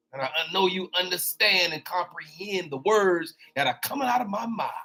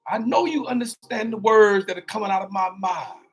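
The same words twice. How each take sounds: First: Light Chris Tucker quip, speeding up at the end; a lightly voiced Rush Hour line. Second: Shouted, the word mind hit hard; Chris Tucker line reworked. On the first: Preacher to congregation, a light Chris Tucker impression. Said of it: "That's that Chris Tucker". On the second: Shown as a demonstration. Preacher correcting himself to the congregation, shouting mind. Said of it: "not my mouth".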